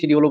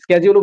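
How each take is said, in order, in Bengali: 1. শব্দটি sh ধ্বনি দিয়ে শুরু হয়। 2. শব্দটি sk ধ্বনি দিয়ে শুরু হয়। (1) "এটাকে কিন্তু দুই ভাবে পড়া যায়" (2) "এটাকে কিন্তু দুই ভাবে পড়া যায়"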